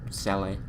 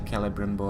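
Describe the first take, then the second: First: The name begins with a soft S sound. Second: The name begins with a hard K sound. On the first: This is how the speaker prefers to pronounce it. "C before E tends to be S for me" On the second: This is how others pronounce it. "So they say"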